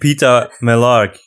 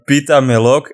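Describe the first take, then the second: First: The last word ends with an 'ark' sound. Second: The last word ends with an 'ok' sound. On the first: It is the character's name. "the name pita melark" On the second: It means a pita with garlic in a Flemish dialect. "if you pronounce it a bit differently"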